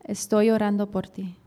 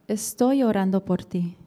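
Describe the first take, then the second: The two takes are said the same way.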